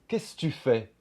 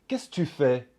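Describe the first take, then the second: First: The second 'que' is dropped out. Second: The second 'que' is dropped out.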